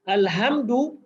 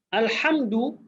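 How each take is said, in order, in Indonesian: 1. Bunyi h-nya biasa dan lembut. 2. Bunyi h-nya kuat, dari tenggorokan. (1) "maknanya kemusnahan" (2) "maknanya puji-pujian"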